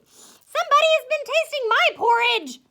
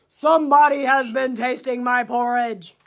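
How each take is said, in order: First: It is said in a middle-sized, medium voice. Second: It is said in a great big, deep voice.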